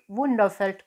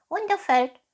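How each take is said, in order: First: Said in the usual way. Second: High, loud stage-whisper of a cat. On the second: Acted. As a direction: echo it in a high, secretive cat voice. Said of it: "flüsterte die Katze".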